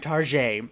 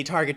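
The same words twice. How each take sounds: First: "Target" as tar-ZHAY, French zh and silent t; fancy pronunciation. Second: Said in the usual way. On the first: Retold or imitated. Mocking friends who think it's fancy, fancy pronunciation. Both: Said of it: "they think it's fancy to say".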